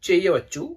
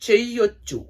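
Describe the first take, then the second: First: Both words are said fully and separately. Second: The two words merge into one contracted word. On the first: "ചെയ് എന്ന് പറയാനായിട്ട്" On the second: "ഇവിടെയാണ് ഞാൻ പറഞ്ഞ ആ ഒരു ഇത് പ്രോപ്പറായിട്ട് വരുന്നത്"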